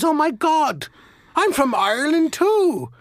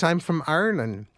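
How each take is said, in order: First: Much higher, delighted Irish voice; excited Irish accent. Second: A hint of an Irish lilt, stated plainly; just a touch of brogue, matter-of-fact; light Irish accent. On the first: Retold or imitated. Second Irishman thrilled to meet a countryman, high excited brogue. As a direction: squeal it with Irish glee. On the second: First Irishman answering in a mild Irish accent. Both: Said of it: "identify with the accent".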